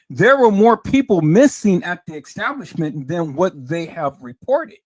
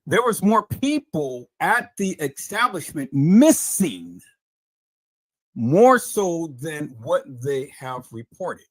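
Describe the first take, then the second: First: Loud, forceful burst that eases off at the end; bubble-bursting announcement. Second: Very slow, deliberate delivery with drawn-out key words; emphatic restatement. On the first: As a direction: hit MISSING hard and loud. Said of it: "let me bust your bubble". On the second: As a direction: stretch out MISSING and spell it out for them. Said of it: "let me say this again, peoples". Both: Real, not acted.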